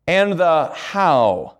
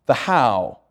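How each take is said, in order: First: "And the how" stretched very slowly and leaned on; slow it right down and weigh each word of "And the how"; "And the how" said slowly and pointedly to the class; drawn-out emphasis. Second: Said in the usual way. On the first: Shown as a demonstration.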